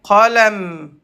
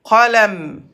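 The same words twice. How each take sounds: First: The word ends on a bare 'm' sound. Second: The same.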